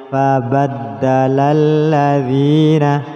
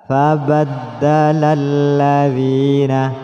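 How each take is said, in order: Both takes have the same delivery.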